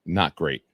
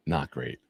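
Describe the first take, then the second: First: Said in the usual way. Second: Softer, lower repeat of Not great; quiet echo. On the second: Real, not acted. Echoing his own verdict on the trip, softer. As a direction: let "Not great," fall away much softer and lower.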